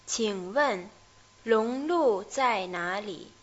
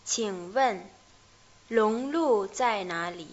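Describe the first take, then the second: First: Slowly, again. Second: Slowly. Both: Shown as a demonstration. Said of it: "vamos a ver lentamente este diálogo".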